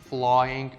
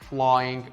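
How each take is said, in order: Both takes have the same delivery.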